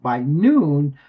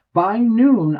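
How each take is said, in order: First: Said in the usual way. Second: "noon" said higher and louder, punched hard; stressed repeat. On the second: Shown as a demonstration. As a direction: hit "noon" the second time with disbelief. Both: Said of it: "repeated for emphasis".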